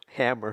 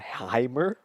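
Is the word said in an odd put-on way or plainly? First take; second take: plainly; put-on. First: The word is said in a plain ordinary way. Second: The word is said in an odd put-on way. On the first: The speaker calls it right. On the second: The speaker calls it wrong.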